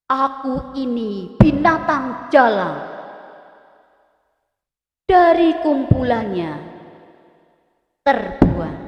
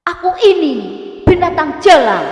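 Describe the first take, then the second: First: Slow with binatang and Dari pressed hard; strong stress. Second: Much higher and louder, ini and jalan hammered; emphatic stress. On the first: Teacher demonstrating stressed poem words, slow and weighty. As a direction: lean heavily on binatang and Dari. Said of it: "kata-kata yang bercetak tebal merupakan kata yang perlu mendapat penekanan kuat". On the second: Teacher showing firm emphasis on poem line, loud. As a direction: punch Aku ini binatang jalan loudly. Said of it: "Ini lebih tegas". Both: Shown as a demonstration.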